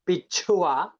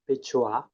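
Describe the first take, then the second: First: The ch sound has a puff of air. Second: The ch sound has no puff of air. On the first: A ring worn on the toe. "But in aspirated, as which we intended" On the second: The middle. "if the cha is unaspirated, it's just bichua"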